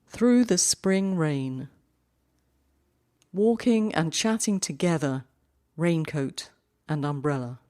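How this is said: The main pause comes after the first line. "the cut naturally falls at the end of the first line"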